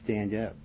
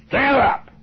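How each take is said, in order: First: It is said softly and without force. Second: It is said loudly and with force. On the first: The speaker calls it wrong. "when you're reading, you're saying" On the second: The speaker calls it right. "in a strong voice, a loud voice"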